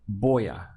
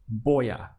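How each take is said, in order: The two takes are said the same way.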